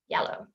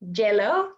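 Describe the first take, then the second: First: The word begins with a Y sound. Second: The word begins with a J sound. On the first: The speaker calls it right. "We want to say" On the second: The speaker calls it wrong. "these ones are incorrect"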